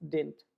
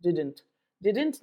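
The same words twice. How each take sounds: First: DIDN'T in one syllable, dint; contracted didn't. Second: DIDN'T in two syllables, did-dent, both d's sounded; overpronounced didn't. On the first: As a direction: say "didn't" as dint, dropping the middle d. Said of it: "it is didn't". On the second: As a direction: say "didn't" wrongly with a full second d. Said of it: "नहीं होता है". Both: Shown as a demonstration.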